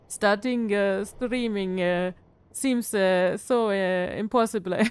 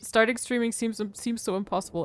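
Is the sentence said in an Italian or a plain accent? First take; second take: Italian; plain. First: It is said in an Italian accent, adding vowels. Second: It is said in a plain accent.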